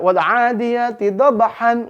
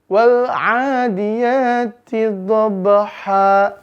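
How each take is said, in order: First: The last word ends with an n sound. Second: The last word ends in a long vowel. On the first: The speaker calls it wrong. "kalau kita pengen wakaf, maka bunyi nggak boleh dibaca wal 'adiyati dhabhan, nggak boleh" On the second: The speaker calls it right. "Maka cara bacanya wal 'adiyati dhabha"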